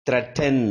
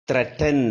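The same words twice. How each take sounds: The two takes are said the same way.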